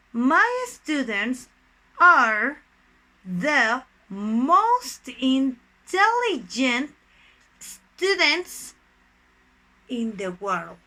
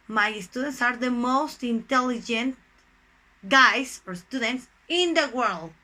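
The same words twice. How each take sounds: First: Drawn-out words with long pauses between; slow dictation. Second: Said in the usual way. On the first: Shown as a demonstration. Teacher builds superlative example for students, slow dictation. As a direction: dictate it piece by piece, stressing each word.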